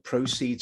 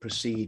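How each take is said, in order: First: The stress is on the first syllable. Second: The stress is on the second syllable. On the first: It is used as a noun. "the proceeds, the noun, stress on the first syllable" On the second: It is used as a verb. "proceed in number two is used as a verb"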